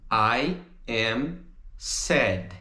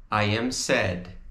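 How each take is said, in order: First: I AM SAD, each word slow and separate. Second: "I am sad" run together in one phrase; joined up. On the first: Teacher models the English answer, slow word by word. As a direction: say "I am sad" slowly with gaps between words. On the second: Teacher repeats the answer for students, joined up. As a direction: say "I am sad" smoothly without gaps, a little lower. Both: Shown as a demonstration. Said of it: "se a gente fosse contrair".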